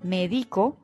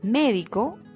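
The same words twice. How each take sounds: First: The stress is on the second syllable. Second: The stress is on the first syllable. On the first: It means I treat medically, now. "Médico es un verbo en primera persona y en tiempo presente" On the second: It names a health professional. "Médico es el profesional de la salud"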